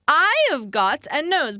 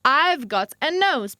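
First: The word have is said in full. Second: The word have is shortened into I've.

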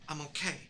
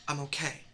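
The two takes are said the same way.

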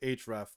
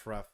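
First: It is said as separate parts. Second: It is said as one single word. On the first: The speaker calls it wrong. "I don't say href" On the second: The speaker calls it right. "it's href. It's one word"

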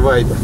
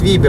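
First: The name is read the English way. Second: The name is read as spelled, Estonian style. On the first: The speaker calls it wrong. "а не Вайбер" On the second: The speaker calls it right. "как пишется, так и читается"

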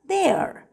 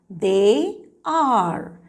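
First: The words are joined into one short syllable. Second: Two full words are said separately.

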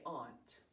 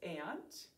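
First: The vowel is an open 'aw' as in 'awnt'. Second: The vowel is a flat 'a' as in 'ant'. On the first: This pronunciation matches the spelling. "to spell it though, we need to say aunt" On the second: This is a common everyday pronunciation. "Sometimes people pronounce this aunt"

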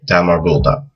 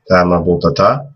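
First: The word ends with no final vowel. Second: The word ends with a final a vowel. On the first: The speaker stops after this word. "if you just stop at the end of the word and you don't continue" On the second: Another word follows without a stop. "that would also be the same with the fatha"

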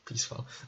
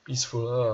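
First: The last syllable has an 'a' sound, 'fall'. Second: The last syllable has a short 'u' sound, 'ful'. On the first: The speaker calls it wrong. "proč jsem řekl peacefall... U se čte jako A někdy" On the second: The speaker calls it right.

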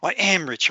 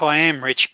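First: It is said with passion and conviction. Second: It is said half-heartedly, without conviction. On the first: The speaker truly believes it. The speaker calls it right. "say it with passion and you really mean it" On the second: The speaker does not really believe it. The speaker calls it wrong. "it's no good sitting back"

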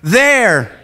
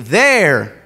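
First: The word is said loudly, with lots of energy. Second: The word is said calmly, without extra energy. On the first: The speaker calls it right. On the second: The speaker calls it wrong.

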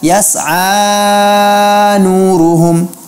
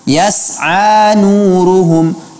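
First: The long vowel is stretched out excessively long. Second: The long vowel is held for two counts only. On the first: The speaker calls it wrong. "bukan seperti itu" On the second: The speaker calls it right. "seharusnya dibaca mad asli, mad tabi'i, dua harakat saja"

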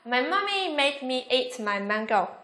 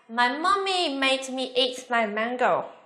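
First: The sentence is said at its fastest speed. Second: The sentence is said a little faster. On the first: "Nhanh hơn nữa nào" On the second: "Nhanh hơn một chút nha"

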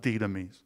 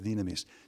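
First: The word is given an English pronunciation. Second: The word is given a Greek pronunciation. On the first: The speaker calls it wrong. "That's English pronunciation" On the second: The speaker calls it right. "The word is dinamis"

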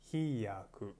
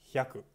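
First: The opening is split into 'hi' and 'ya'. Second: The opening 'hya' is one blended syllable. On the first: The speaker calls it wrong. "hindi hiyaku" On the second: The speaker calls it right. "ganito ang pagbasa. Hyaku"

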